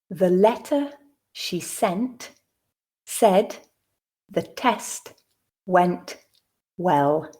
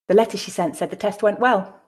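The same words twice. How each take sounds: First: The sentence is read slowly and deliberately. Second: The sentence is read at a natural speed. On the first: "the first time slowly" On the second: "at a more natural pace"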